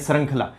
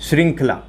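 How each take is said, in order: First: The first syllable is said with an 'e' vowel. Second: The first syllable is said with an 'i' vowel. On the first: The speaker calls it wrong. "श्रृंखला बोलते ही आपका क्या हो जाता है, वो अशुद्ध हो जाता है" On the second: The speaker calls it right. "शुद्ध हो जाएगा श्रृंखला"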